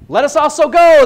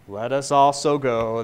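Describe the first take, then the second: First: It is spoken boldly and confidently. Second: It is spoken in a gloomy, mopey voice. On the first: The speaker is eager to follow even to death. "maybe he was feeling real bold" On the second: The speaker is resigned and pessimistic about going. "thinking about Eeyore saying"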